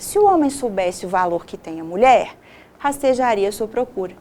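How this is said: There is a pause after 'mulher'.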